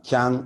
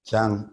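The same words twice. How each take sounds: First: The tone rises on the word. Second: The tone falls on the word. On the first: It refers to many farms. "kyang is plural" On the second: It refers to one farm. "kyang is one"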